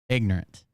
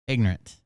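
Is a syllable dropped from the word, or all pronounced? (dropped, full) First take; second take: dropped; dropped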